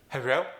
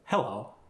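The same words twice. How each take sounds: First: Melodic hello with L as R, Korean accent; lilting Korean-accented hello, like "herro". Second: Said in the usual way. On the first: Shown as a demonstration. Coach showing a more melodic tone, Korean accent. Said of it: "A little more melodic". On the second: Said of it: "What did you notice?".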